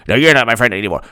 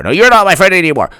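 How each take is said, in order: First: Quick comeback in a low voice; lower retort. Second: Mock indignant, quick higher voice; higher retort. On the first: Acted. Other friend insists too, low mock huff. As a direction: answer back lower, dropping away. Acted quarrel, answering retort. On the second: Friend insists friendship is over, quick high huff. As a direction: insist back, pitched up. Acted quarrel, traded retorts.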